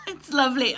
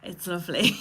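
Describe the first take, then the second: First: Said in the usual way. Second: A choked little laugh rising at the end; laughing it off so she doesn't cry; teary laugh. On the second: Real, not acted. Host reacts to the poem she found, teary laugh.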